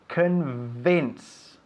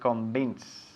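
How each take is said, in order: First: The v is made with lip on teeth. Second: The v is not made with lip on teeth. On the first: The speaker calls it right. "You touch your top teeth with your bottom lip" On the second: The speaker calls it wrong. "a lot of Spaniards say convince, lo cual suena horrible"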